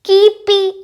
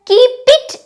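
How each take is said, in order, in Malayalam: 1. രണ്ട് വാക്കുകളും ഒന്നായി ചേർന്നാണ് പറയുന്നത്. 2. രണ്ട് വാക്കുകളും വേറിട്ടാണ് പറയുന്നത്. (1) "കീപി കീപി എന്ന് പറയുക" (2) "കീപ് ഇറ്റ് എന്നല്ല പറയുക"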